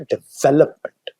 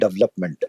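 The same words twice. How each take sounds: First: The second syllable 've' is stressed. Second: The second syllable 've' is not stressed. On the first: The speaker calls it right. "Word है development. Development तो वी के ऊपर ज्यादा emphasis है।" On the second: The speaker calls it wrong. "जैसे हम कहते हैं डेवलपमेंट, वर्ड डेवलपमेंट नहीं है"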